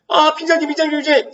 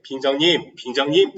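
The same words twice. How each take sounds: First: Much higher, exaggerated comic plea. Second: Said in the usual way. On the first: Shown as a demonstration. Teacher showing the humorous tone of the plea, high and exaggerated. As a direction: ham up the call for humour. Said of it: "이 톤을 바꿔서 뭐 하는 거야? 해악성". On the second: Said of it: "이 톤을 바꿔서".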